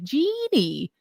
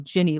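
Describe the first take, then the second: First: The first syllable has a long 'ee' vowel. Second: The first syllable has a short 'i' vowel. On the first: Someone else's mistaken version is being imitated. The speaker calls it wrong. "cannot pronounce it correctly" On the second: This is how the name is really said. The speaker calls it right. "like Gin-y"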